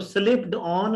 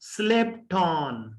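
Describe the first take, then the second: First: Slipped ends with a d sound before on. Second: Slipped ends with a t sound linked into on. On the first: The speaker calls it wrong. "स्लिप्ड ऑन नहीं है" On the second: The speaker calls it right. "बल्कि टे की आवाज है और टे भी ऑन के साथ मिलकर"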